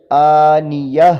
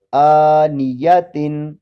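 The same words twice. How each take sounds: First: "آنیہ" slow and loud, ending in breathy h; pausal form. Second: "آنیتن" slow with long "آ" and sounded final "تن"; continuous reading. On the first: Teacher shows stopping on round ta, "آنیہ" ending in h. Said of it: "اب ذرا اس پر وقف کر کے بتائیں". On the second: Teacher reads the word before pausing rule, "آنیتن" ending in "tin". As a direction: stretch the first vowel, end "آنیتن" on "tin". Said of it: "آنیتن کے آخر میں گول تا ہے". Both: Shown as a demonstration.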